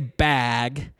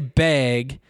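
First: The word is said with a standard vowel. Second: The word is said with a Montana vowel. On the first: This is how the speaker is expected to say it. The speaker calls it right. "I'm supposed to say bag" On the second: This is how the speaker said it growing up. The speaker calls it wrong. "I used to say bag"

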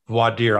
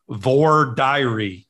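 First: The term is said in a non-Southern pronunciation. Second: The term is said in a Southern US pronunciation. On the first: "I pronounce it the way you do" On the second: "In North Carolina, and in the South, they pronounce it voir dire"

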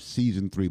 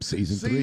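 First: It is said flatly, with little energy. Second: It is said loudly, with lots of energy. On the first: The speaker calls it wrong. "You got to say that with more enthusiasm" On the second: The speaker calls it right. "There you go"

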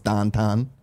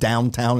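First: The vowels are flattened to an 'ah' sound. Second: The vowels are said with a standard 'ow' sound. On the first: The speaker calls it wrong. "We don't say our OWs correctly. It's AH" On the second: The speaker calls it right. "instead of downtown"

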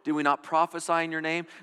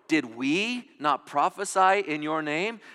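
First: It is read plainly, without added emphasis. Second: It is read with added points of emphasis.

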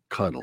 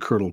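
First: The word is said without any R sound. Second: The word is said with an R sound. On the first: "So no R" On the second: "the R stuck around in the pronunciation"

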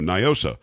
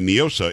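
First: The name is pronounced with English-style sounds. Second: The name is pronounced with Spanish-style sounds. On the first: The speaker calls it right. "It's an English acronym" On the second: The speaker calls it wrong. "some people are trying to pronounce it the Spanish way"

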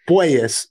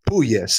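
First: The first syllable sounds like 'poi'. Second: The first syllable sounds like 'poo'. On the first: The speaker calls it right. "it is more of a poi" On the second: The speaker calls it wrong.

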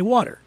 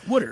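First: It is said without a Philly accent. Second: It is said in a Philly accent.

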